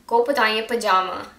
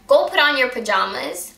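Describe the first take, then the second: First: "pajama" without the final s; dialect singular pajama. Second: Said in the usual way. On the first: Shown as a demonstration. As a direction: end on "pajama", dropping the plural s. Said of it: "it's one of them". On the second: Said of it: "even though we mean it's two of them".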